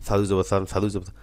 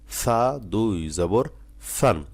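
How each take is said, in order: First: সা দুই জবর সান rattled off quickly; the rushed way to read সা দুই জবর সান; hurried reading. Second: সা দুই জবর সান drawn out slowly, each syllable apart; slowly and carefully. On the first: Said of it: "তাড়াহুড়ো না". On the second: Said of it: "আস্তে আস্তে উচ্চারণ". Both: Shown as a demonstration.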